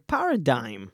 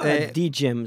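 First: The word is said without a 'g' sound. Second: The word is said with a 'g' sound. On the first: The speaker calls it right. "זה פרדיים" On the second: The speaker calls it wrong. "לא פרדיג'ם"

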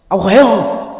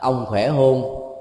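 First: It sounds like a harsh scolding. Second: It sounds like ordinary, casual concern.

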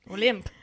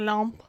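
First: The name is said without a French accent. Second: The name is said with a French accent. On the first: "if you say it without the accent" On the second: "I feel very French saying it"

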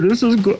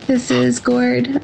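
First: It is said in a put-on manly voice. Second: It is said in a natural voice.

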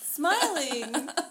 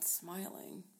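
First: It is said with an audibly smiling voice. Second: It is said with a neutral, unsmiling voice. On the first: "They can hear the difference" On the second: "I like how you said that without smiling"

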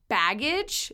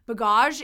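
First: The word has a plain English pronunciation. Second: The word has a French-like pronunciation.

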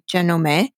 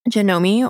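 First: The name is pronounced in a Japanese way. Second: The name is pronounced in an English way.

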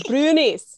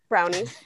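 First: The word is said in a Scottish accent. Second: The word is said in a standard accent. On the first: "Can you say it with an accent for us?" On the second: "brownies or brunies, depending on like accent or region"

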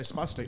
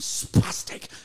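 First: The word is said in a plain, neutral tone. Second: The word is spat out with a harsh, insulting tone. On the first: It describes a medical condition. "You say spastic, like your muscles are spasticated" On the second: It is meant as an insult. "if you like put some stank on it, a bit of habanero pepper"

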